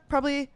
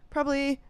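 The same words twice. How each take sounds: The two takes are said the same way.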